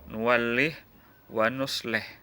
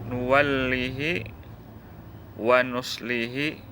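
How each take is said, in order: First: Each h sound has no vowel after it. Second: Each h sound carries a long vowel after it.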